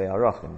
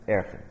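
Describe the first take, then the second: First: The word is said with three syllables. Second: The word is said with two syllables. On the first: This is the more correct form. The speaker calls it right. "Probably more correct to say Arachin" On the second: This is how most yeshivas say it. The speaker calls it wrong. "In most of the yeshiva world, you're going to hear people say Erchin"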